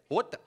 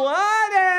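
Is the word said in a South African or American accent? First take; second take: South African; American. First: It is said in a South African accent. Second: It is said in an American accent.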